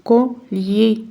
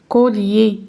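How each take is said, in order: No difference in how they are said.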